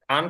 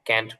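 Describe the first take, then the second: First: The vowel is a long open 'ah' sound. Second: The vowel is a front 'a' as in cat. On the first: "British উচ্চারণে বলে" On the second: "American উচ্চারণে ক্যান্ট বলে"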